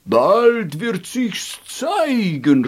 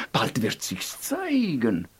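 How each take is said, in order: First: Slow, louder chorus call; chorus proclaiming. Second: Soft prophecy. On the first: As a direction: ring it out slowly like a choir. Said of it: "rief der ganze Chor". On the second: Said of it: "sagten die Feen". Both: Acted.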